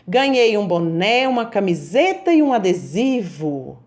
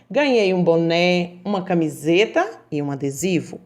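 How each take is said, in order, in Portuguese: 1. É dita com um tom alegre e animado. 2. É dita como uma afirmação calma e neutra. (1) "ela expressou aí na frase uma alegria" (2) "Ponto final"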